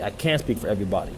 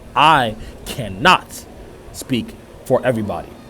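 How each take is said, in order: First: It is said at normal speed. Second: It is said slowly and carefully.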